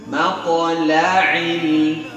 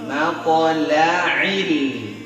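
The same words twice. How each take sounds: Both takes have the same delivery.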